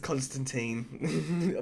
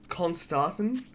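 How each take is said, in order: First: The last syllable sounds like 'teen'. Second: The last syllable sounds like 'tin'. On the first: The speaker calls it wrong. "but I always pronounce it as Constantine" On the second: The speaker calls it right. "I think it's pronounced Constantin"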